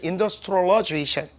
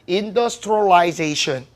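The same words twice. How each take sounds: First: It is said in an American accent. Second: It is said in a British accent. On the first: "미국식은" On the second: "영국식은요"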